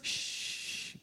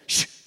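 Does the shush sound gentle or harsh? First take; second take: gentle; harsh. First: The shush is soft and gentle. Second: The shush is sharp and harsh. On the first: "Shh can be nice" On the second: "That's got edges on it, right? That will cut you"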